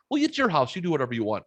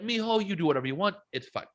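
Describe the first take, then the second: First: High-pitched start, easing down, mock mom; retold mom. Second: High, quick imitation of a Mexican mom; Mexican mom accent. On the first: Son retelling his mom's answer about smoking, imitated mom voice. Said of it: "oh, she goes". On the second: Son retelling his mom's permission, imitated Mexican accent. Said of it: "my mom's Mexican. Dude, she was like".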